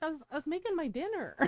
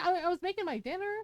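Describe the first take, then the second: First: Said in the usual way. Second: Quick, laughing redo of the line; laughing mock repeat. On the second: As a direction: repeat it faster with a giggle.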